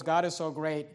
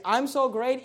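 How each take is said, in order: First: "God" stressed and said lower. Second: "so" lifted with a rising, self-satisfied tune; boastful "I'm so great" with weight on "so"; stress on so. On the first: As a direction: put all the weight on "God", humbly. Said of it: "David's attitude was". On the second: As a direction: lean on "so" and let it rise, smug. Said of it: "Christians' attitude today is". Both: Shown as a demonstration.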